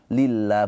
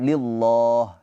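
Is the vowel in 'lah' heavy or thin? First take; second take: thin; heavy. First: The 'lah' is light, with an 'a' vowel. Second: The 'lah' is heavy, with an 'o' vowel. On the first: The speaker calls it right. "dibacanya tarkik pakai pakai a" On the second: The speaker calls it wrong.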